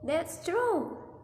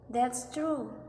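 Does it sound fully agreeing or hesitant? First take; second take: hesitant; fully agreeing. First: It sounds like agreement with a reservation. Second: It sounds like full, final agreement. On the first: The speaker agrees but has doubts. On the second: The speaker agrees completely. "full statement"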